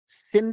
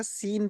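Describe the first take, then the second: First: सिन cut short, vowel not stretched. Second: सीन with the vowel held long. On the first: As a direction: say सिन with a brief i. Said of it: "कि हम खींच रहे हैं ना". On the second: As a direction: stretch the ee in सीन. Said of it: "सी को खींच रहे हैं". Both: Shown as a demonstration.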